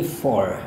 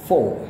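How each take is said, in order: First: Four said with the R sounded; American four. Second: Four said without the R, as /fo/; short British four with the R dropped. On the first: Teacher contrasts American four with British four. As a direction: model four with a clear R, American style. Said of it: "atau kalau gaya British". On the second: Teacher shows how British speakers drop the R in four. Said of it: "Mereka nggak sebutin R-nya". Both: Shown as a demonstration.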